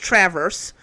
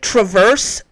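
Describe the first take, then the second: First: It is pronounced the way Michigan locals say it. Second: It is pronounced the way outsiders say it. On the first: This is how people in Michigan say the name. The speaker calls it right. "It's Traverse, just in case you didn't know" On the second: This is how people from elsewhere say the name. The speaker calls it wrong. "for all the people who keep calling it Traverse"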